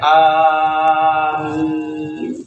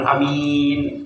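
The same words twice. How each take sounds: First: The a and m sounds are held long. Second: The a and m sounds are kept short. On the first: It asks God to grant the prayer. The speaker calls it right. "Dipanjangkan a-nya, dipanjangkan mimnya" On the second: It means safe or trustworthy. The speaker calls it wrong. "bukan amin. Ya, amin mah aman atau terpercaya"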